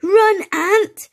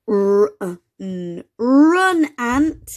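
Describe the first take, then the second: First: Very high, loud urgent shout; exclamation. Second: Exclamation. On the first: Max warning Ant to flee the hen, loud urgent shout. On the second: Max warning Ant to flee the hen, loud urgent call. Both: Acted. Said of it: "with an exclamation mark".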